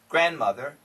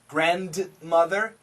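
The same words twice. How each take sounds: First: The D sound in the middle is dropped. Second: The D sound in the middle is pronounced. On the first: "the N and the M can cancel the D" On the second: "grandmother's perfect"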